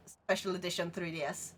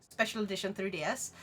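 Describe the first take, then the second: No difference in how they are said.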